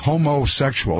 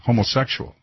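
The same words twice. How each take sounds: First: The first part, homo, is strongly stressed. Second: The word is said with ordinary stress. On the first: "they really pronounce homo" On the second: "as opposed to"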